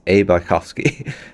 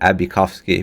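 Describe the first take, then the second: First: The letter A is said apart from the name. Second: The letter A runs straight into the name. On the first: The speaker calls it right. "it's actually Antony Bykovsky. So it's A. Bykovsky" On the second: The speaker calls it wrong. "I've always pronounced it Abikovsky"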